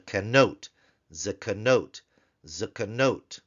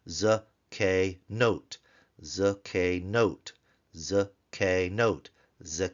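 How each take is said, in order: First: Said in the usual way. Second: "z, k, note" as three separate syllables, za, kay, note; syllable-by-syllable demo. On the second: Shown as a demonstration. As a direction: pause after each piece of "z, k, note". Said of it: "the third syllable is closed".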